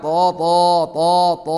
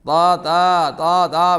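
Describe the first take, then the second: First: The syllable is heavy, filling the mouth. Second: The syllable is light, with a thin vowel. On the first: The speaker calls it right. "പറയണം" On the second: The speaker calls it wrong. "പറഞ്ഞാൽ പോരാ"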